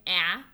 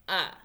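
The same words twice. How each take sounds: First: "a" said as a short a; expected vowel sound. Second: "a" said as a short u; actual vowel sound. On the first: Teacher contrasting vowel sounds, expected "a". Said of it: "we don't hear an". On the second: Teacher contrasting vowel sounds, actual "a". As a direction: sound out the heard "a". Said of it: "we hear an". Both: Shown as a demonstration.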